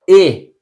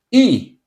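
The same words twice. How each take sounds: First: E said as Portuguese eh. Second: E said as English ee. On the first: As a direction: give E the Portuguese eh. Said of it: "in Portuguese". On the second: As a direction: give E the English ee. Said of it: "in English". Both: Shown as a demonstration.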